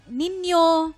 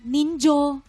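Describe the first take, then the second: First: The middle consonant is a 'y' sound. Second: The middle consonant is a 'j' sound. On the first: This is the common way others say it. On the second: This is how people from the speaker's region say it.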